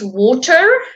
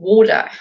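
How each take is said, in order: First: The word is said in a British accent. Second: The word is said in an American accent. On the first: The speaker calls it right. "I speak British English. So it's water" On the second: The speaker calls it wrong. "It's not router or water"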